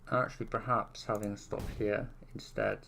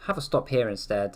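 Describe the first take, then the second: First: Muffled behind a hand; hand over mouth. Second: Said in the usual way. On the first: Real, not acted. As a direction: talk through your hand over your mouth. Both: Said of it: "I've got my hand over my mouth".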